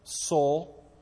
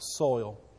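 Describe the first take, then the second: First: The vowel sounds like 'oh', as in 'soul'. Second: The vowel is a clear 'oy' diphthong. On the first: "Nolan Ryan says it's soul. That's the way I say it as well" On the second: "I'll say it right. Look, I said it right"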